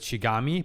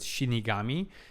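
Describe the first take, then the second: First: The word is said without the 'ni' syllable. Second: The word is said with the 'ni' syllable. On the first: The speaker calls it wrong. "I mispronounced with Shigami" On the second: The speaker calls it right. "but Shinigami, as some people suggested"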